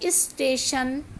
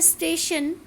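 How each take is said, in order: First: An 'i' vowel is added before 'st'. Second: It starts directly with the 'st' cluster. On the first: The everyday spoken form. "हमने बना दिया" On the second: The original word. "शब्द है स्टेशन"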